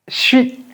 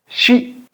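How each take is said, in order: First: The j and s merge into a 'ch' sound. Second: The same.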